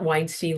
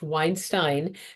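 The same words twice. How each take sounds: First: The two syllables of the name do not rhyme. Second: The two syllables of the name rhyme. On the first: This is how a different, well-known person's name is said. The speaker calls it wrong. "not Weinstein like Harvey" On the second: This is how the speaker's own family name is said. The speaker calls it right. "I always tell people it's pronounced Weinstein"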